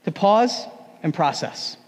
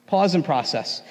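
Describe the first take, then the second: First: Slow emphasis. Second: Said in the usual way. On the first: Shown as a demonstration.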